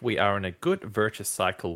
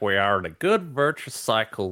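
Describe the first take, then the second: First: It is read in a plain, serious voice. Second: It is read in an exaggerated put-on voice. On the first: The speaker calls it right. "if you're going to read it seriously" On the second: The speaker calls it wrong. "Maybe not in that voice"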